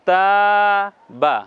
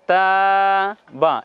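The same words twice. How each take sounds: Both takes have the same delivery.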